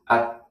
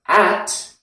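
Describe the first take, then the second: First: The vowel is reduced to a weak schwa. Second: The vowel is a full, clear 'a' sound. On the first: "changes at" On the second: "at changes"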